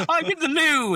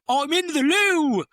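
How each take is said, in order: First: High, loud, laughing English voice; posh English accent. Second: High, loud, slow posh English shout; posh English accent. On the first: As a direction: chirp it like a prim Englishman. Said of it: "He's like". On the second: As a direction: call out like a flustered Englishman. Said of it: "and he's like". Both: Retold or imitated.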